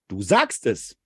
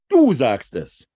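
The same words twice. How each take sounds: First: It sounds like a plain, affirming yes. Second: It sounds pointed, with stress on du.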